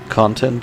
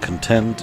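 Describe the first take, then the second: First: The stress is on the first syllable. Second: The stress is on the second syllable. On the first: It is the noun. "with stress on the first syllable is the noun" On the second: It is the adjective. "the adjective with the stress on the second syllable"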